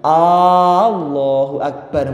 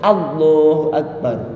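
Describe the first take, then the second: First: The opening A is drawn out long. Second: The opening A is kept short. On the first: It asks whether God is truly great. The speaker calls it wrong. "mboten angsal" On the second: It states that God is great. The speaker calls it right. "Makanya A-nya mboten asal dawa-dawa"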